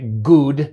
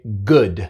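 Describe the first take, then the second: First: The vowel is a long 'oo' as in food. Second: The vowel is a short, relaxed 'u' sound. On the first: The speaker calls it wrong. "No se dice good" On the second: The speaker calls it right. "se dice good"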